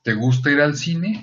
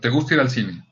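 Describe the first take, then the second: First: It is said as a question, rising. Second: It is said as a statement, falling.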